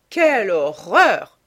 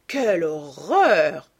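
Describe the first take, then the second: First: Loud, drawn-out cry of a shocked lady; horrified exclamation. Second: Very slow, drawn-out cry of horror, swelling loud; horrified cry. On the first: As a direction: exclaim it in outrage, stretched and punched loud. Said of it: "s'exclama lady Agathe". (exclamation horrifiée, forte et étirée) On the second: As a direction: stretch it out in theatrical dismay, at usual pitch. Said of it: "s'écria lord Henry". (cri d'horreur très étiré, qui enfle) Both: A narrator's reading.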